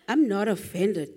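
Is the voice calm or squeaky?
calm. The voice is calm and level. The speaker is not upset. "You can't start off with the"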